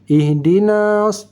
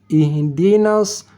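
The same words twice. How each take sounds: First: The vowel in na is held long. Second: The vowel in na is short. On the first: The speaker calls it wrong. "tidak, itu salah" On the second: The speaker calls it right. "dari na langsung masuk ke sad"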